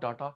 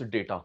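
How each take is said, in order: First: The first vowel is a long 'ah' sound. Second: The first vowel is an 'ay' sound. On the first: The speaker calls it wrong. "It's not डाटा" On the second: The speaker calls it right. "It's डेटा"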